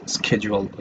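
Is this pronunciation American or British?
American. It is said with an American pronunciation. "American people say schedule"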